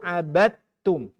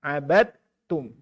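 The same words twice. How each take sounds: First: The d runs straight into the t. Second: The d runs straight into the t.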